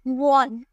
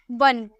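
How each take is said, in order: First: 'वन' said with an O, like 'won' as spelt; wrong O vowel. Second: 'वन' with a short uh, 'vun'; correct short vowel. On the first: Teacher showing how nobody says it, 'वन' with an O vowel. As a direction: round the vowel of 'वन' to 'von'. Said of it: "हम ऐसे तो नहीं बोलते". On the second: Teacher correcting the spelling-based reading, 'वन' with short uh. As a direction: say 'वन' as 'wun', no O sound. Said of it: "लेकिन बोलते क्या है". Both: Shown as a demonstration.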